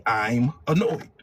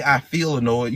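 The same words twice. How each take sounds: First: Annoyed. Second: Said in the usual way. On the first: Shown as a demonstration. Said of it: "You say". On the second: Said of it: "you don't say".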